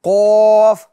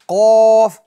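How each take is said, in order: The two takes are said the same way.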